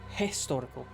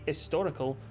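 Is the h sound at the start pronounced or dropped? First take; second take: pronounced; dropped. First: The word starts with an h sound. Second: The word starts without an h sound. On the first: The speaker calls it right. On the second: The speaker calls it wrong.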